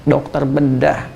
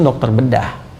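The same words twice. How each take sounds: First: "dokter bedah" drawn out at half speed, softly; slow emphatic repeat. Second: Said in the usual way. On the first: Real, not acted. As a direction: say "dokter bedah" slowly, letting each word sink in. ("dokter bedah" diucapkan pelan dan lambat untuk penekanan)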